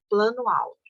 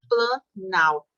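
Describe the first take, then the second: First: Both vowels are kept between the two words. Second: The vowels merge into one single word. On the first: The speaker calls it wrong. "ia ficar estranho" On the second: The speaker calls it right. "tirei o O do plano e ficou planalto"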